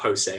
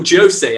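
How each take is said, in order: First: The name is said with Spanish pronunciation. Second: The name is said with Portuguese pronunciation. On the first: The speaker calls it wrong. "not Jose. Jose is Spanish" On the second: The speaker calls it right. "they say in Portugal"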